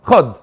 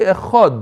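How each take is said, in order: First: It is said quickly with the opening vowel dropped. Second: It is said fully with the opening vowel pronounced. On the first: The speaker calls it wrong. "If you say it really quickly, it might sound like a shva" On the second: The speaker calls it right. "You have to say echad"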